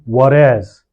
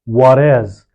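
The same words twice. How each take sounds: First: The T sounds like a quick light D. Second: The T sounds like a quick light D.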